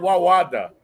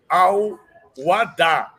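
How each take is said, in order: First: The name starts with a 'W' sound. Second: The name starts with a clear 'Al' sound. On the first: The speaker calls it wrong. "durante décadas a gente falou Wawada" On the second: The speaker calls it right. "Ele está nos ensinando a dizer Al-Wada"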